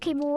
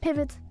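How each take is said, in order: First: The word is said with a German pronunciation. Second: The word is said with an English pronunciation. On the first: The speaker calls it wrong. "I guess it's German pronunciation" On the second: The speaker calls it right. "I think English is pivot"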